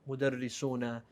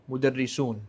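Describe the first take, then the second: First: The word ends with a short final vowel. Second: The word ends on a consonant, without a vowel. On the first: "by making it end with a haraka" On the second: "it technically is correct when you say"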